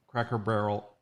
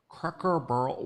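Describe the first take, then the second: First: Said in the usual way. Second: Cracker Barrel mangled into "crahker burl"; garbled pronunciation. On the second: Real, not acted. Host fumbles reading a comment, "Cracker Barrel" garbled to "crahker burl". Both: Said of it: "why can't I speak?".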